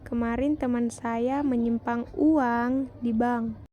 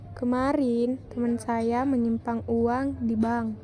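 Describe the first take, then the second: First: The word uang is stressed. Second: The word kemarin is stressed. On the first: "pada kalimat terakhir mendapat tekanan pada kata uang" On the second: "pada kalimat pertama mendapat tekanan pada kata kemarin"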